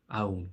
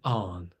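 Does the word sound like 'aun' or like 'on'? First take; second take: aun; on. First: The vowel is a drawn 'aun' sound. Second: The vowel sounds like the English word 'on'. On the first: This is the form used in another region. "Whereas in Munster they say aun" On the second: This is the speaker's own regional form. "I pronounce A N N, as in on"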